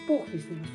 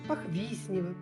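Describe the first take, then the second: First: The stress falls on the first syllable. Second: The stress falls on a later syllable. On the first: The speaker calls it right. "правильно надо говорить Похвеснево с ударением на первый слог" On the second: The speaker calls it wrong. "Как только не говорят"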